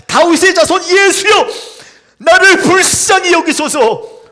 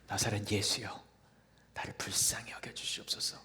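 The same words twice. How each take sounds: First: Louder cry. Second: Soft whispered plea, hushed; whispered cry. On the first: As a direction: cry out even louder despite the crowd. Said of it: "더 크게 소리를 질렀습니다". (꾸짖음에도 더 크게 외치는 절규) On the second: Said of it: "소리를 질렀지요". (속삭이듯 애원하는 외침) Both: Acted.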